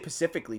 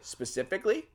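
First: The word begins with a p sound. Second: The word begins with an s sound. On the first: The speaker calls it wrong. "some people say pacifically" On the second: The speaker calls it right. "I said it right"

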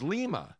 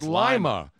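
First: It is said like the capital of Peru. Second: It is said like the bean. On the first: It names the city in Peru. "in Peru, L-I-M-A is Lima" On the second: It names the local place in Delaware County. "like Lima bean"

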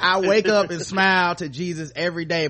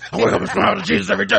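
First: It is said in a calm, ordinary voice. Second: It is said in an angry, intense voice.

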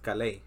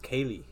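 First: The name is said in its own pronunciation. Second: The name is read as an English word. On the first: The speaker calls it right. "his name is Kalei" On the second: The speaker calls it wrong. "say like how you read it in English, it's pronounced Kaylee"

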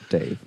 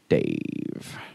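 First: The name is said in a plain, neutral tone. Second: The name is said with a contemptuous sneer.

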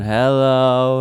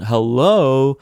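First: It is said in a flat, droning tone. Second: It is said in a mocking, sardonic tone.

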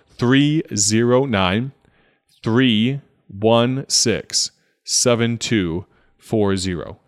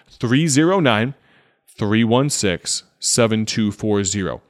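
First: The number is read at a slower pace. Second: The number is read at a faster pace.

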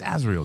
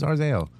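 First: The z sound comes before the r. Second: The r sound comes before the z. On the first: The speaker calls it right. "It's Azrael, dude" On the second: The speaker calls it wrong. "Who's Arzael?"

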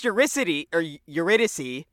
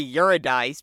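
First: The name is said with its usual pronunciation. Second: The name is said with an altered pronunciation. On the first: The speaker calls it right. "It's Eurydice" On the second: The speaker calls it wrong. "they say Eurydice because they don't fucking know"

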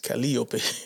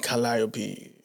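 First: The name is pronounced the Spanish way. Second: The name is pronounced the English way. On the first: "I'm so used to saying that in Spanish as Calliope" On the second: "I have a problem saying Calliope"

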